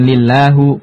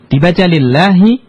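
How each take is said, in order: First: The word ends with a u vowel. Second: The word ends with an i vowel. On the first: The speaker calls it wrong. "bukan lillahu" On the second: The speaker calls it right.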